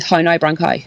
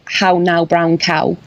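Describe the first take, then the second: First: It has a strong, fast Irish accent. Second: It has a mild, softened Irish accent.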